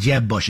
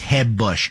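First: Jeb starts with an English J sound. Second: Jeb starts with a Spanish-style H sound.

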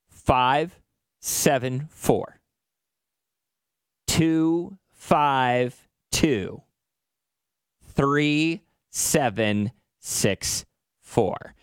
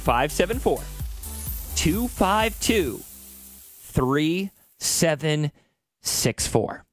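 First: The number is said slowly. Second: The number is said fast.

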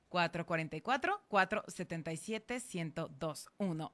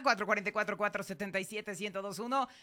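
First: The number is said more slowly. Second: The number is said at normal speed.

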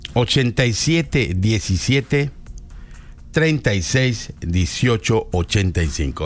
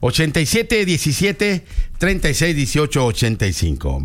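First: The number is read at a slower pace. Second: The number is read at a quicker pace.

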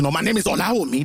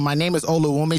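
First: The name is said with a Nigerian accent. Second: The name is said with a Canadian accent.

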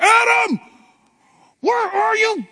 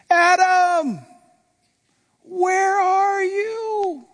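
First: It is said in a harsh, angry tone. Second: It is said in a sad, heartbroken tone.

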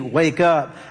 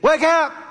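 First: It is said plainly and calmly. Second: It is said loudly and urgently.

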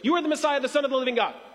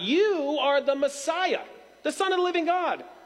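First: It is rushed out fast, with no pauses. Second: It is said with proud, assured confidence.

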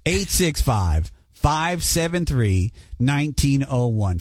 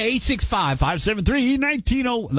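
First: The number is said more slowly. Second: The number is said at a normal, quicker pace.

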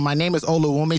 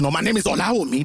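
First: The name is said with a Canadian accent. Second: The name is said with a Nigerian accent.

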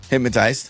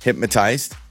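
First: It is said at normal speed. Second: It is said slowly.

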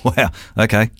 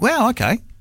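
First: It sounds mocking and sarcastic. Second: It sounds supportive and encouraging.

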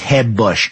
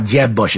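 First: The name starts with a Spanish-style H sound. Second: The name starts with an English J sound.

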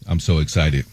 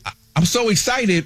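First: It is said flatly, without emotion. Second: It is said with excitement.

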